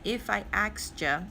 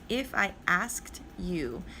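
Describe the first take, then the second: First: The final 'you' is reduced to 'ya'. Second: Every word is carefully and fully pronounced. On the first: "in the song I think it sounds like if I asked ya" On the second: "so I'm over enunciating"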